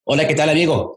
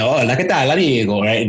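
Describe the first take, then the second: First: Plain Spanish greeting, a touch higher; Spanish rhythm. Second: Spanish words in an Italian accent. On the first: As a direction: say it with normal Spanish timing. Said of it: "So I'm speaking Spanish". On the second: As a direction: swing the syllable timing the Italian way. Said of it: "Spanish words with Italian accent". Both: Shown as a demonstration.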